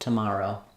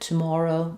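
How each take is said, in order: First: The middle vowel is open and unrounded. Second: The middle vowel is rounded. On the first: "In American English, ah, nice open, unrounded vowel" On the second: "In British English, ... slightly different rounding vowel"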